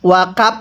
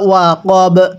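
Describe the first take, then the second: First: The word ends with a p-like sound. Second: The word ends with a b sound. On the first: The speaker calls it wrong. "ওয়া কাপ পড়ব না" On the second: The speaker calls it right. "এখন যদি আমরা ওয়াকফ করি তাহলে ইদা ওয়া কব"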